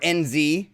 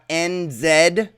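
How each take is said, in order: First: Z is said the American way. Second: Z is said the non-American way.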